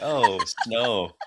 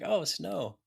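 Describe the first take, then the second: First: It sounds weary and fed up. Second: It sounds delighted and full of wonder.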